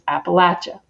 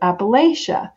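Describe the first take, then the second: First: It is said the way locals pronounce it. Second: It is said the way outsiders pronounce it. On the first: This is how people who live there say it. The speaker calls it right. "the way we say it is Appalachia" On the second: This is how people from elsewhere say it. The speaker calls it wrong. "people say"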